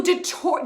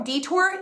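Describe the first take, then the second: First: Detour said dih-TOUR, short first vowel; unsure pronunciation. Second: Detour said DEE-tour, rising; questioning pronunciation. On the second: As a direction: try detour as "DEE-tor?". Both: Real, not acted. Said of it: "Is it deter or detour?".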